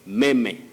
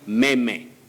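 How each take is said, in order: First: The word is pronounced just as it is spelled. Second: The word is pronounced just as it is spelled.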